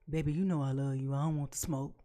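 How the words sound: It is said in a put-on voice.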